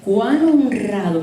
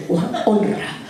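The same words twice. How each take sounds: First: Said in the usual way. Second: Mock a haughty wife's scorn; scornful mimicry of Michal. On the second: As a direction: hand on hip, sneering it. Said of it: "se puso la mano a la cintura y dijo".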